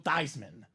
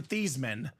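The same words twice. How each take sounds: First: The name is said to rhyme with Heisman. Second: The name is said not rhyming with Heisman. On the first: This is the changed family name. "Forever, Joe would be known as Joe Theismann" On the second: This is the original family name. "No longer Theismann"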